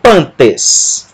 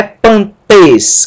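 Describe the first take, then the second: First: PAN-tes, first syllable stressed, tes falling away; stress on penultimate. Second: Pan-TES, stress thrown onto the last syllable; wrong final stress. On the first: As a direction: hit the pan of pantes. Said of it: "a sílaba tônica é a penúltima". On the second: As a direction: punch the tes of pantes. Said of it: "com a sílaba tônica em tes". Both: Shown as a demonstration.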